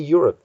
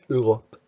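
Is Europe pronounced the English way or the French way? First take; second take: English; French. First: The word has an English pronunciation. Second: The word has a French pronunciation. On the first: The speaker calls it wrong. "the French don't say Europe" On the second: The speaker calls it right. "They say Europe"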